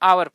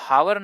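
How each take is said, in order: First: The word begins directly with a vowel. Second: The word begins with an h sound. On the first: The speaker calls it right. "आवर पढ़ेंगे" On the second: The speaker calls it wrong. "इसे हावर न पढ़ के"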